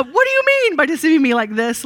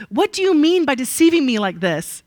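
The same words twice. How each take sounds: First: Higher and louder, an accusing demand. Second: Demanding. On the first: Teacher reading Laban's accusation to Jacob, demanding and louder. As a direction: read it as Laban confronting Jacob. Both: A narrator's reading. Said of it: "Laban demanded".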